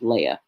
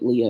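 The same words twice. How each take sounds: First: Leah said the Hebrew way, LAY-ah; Hebrew pronunciation. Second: Leah said the English way, LEE-uh; English pronunciation. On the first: Teacher reading the vowel markings, Leah as LAY-ah. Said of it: "in the Hebrew, if you're reading the Hebrew". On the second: Teacher showing how English says the name, Leah as LEE-uh. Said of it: "we would pronounce it Leah in English". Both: Shown as a demonstration.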